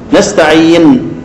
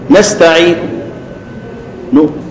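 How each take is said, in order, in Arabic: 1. تنتهي النون ساكنة دون أي حركة. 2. تحمل النون حركة خفيفة جزئية تشبه الضمة. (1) "طبعا الأصل السكون" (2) "طب الروم"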